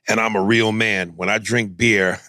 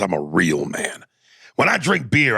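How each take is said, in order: First: It is said in his normal voice. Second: It is said in a put-on character voice.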